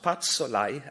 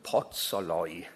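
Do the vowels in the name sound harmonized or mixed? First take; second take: mixed; harmonized. First: The name's vowels do not match each other. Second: The name's vowels match each other throughout. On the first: The speaker calls it wrong. "It's not Patsolai, as I thought" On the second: The speaker calls it right. "a wonderful example of Hungarian vowel harmony"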